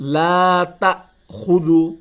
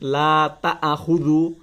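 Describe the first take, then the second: First: The vowel after ta is short before the catch. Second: The vowel after ta is drawn out long. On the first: The speaker calls it right. "তা গিয়ে হামজাকে ধরবে" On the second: The speaker calls it wrong. "অনেকেই পড়েন লা তাআখুযু"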